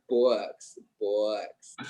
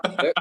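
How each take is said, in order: First: "books" with a long, drawn-out American vowel. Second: "books" with a short Scottish vowel. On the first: Scot correcting himself, "books" with a long vowel. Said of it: "like a really long vowel". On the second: Scot correcting himself, "books" with a short Scottish vowel. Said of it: "they're not books". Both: Shown as a demonstration.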